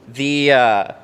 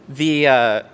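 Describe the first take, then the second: Both takes have the same delivery.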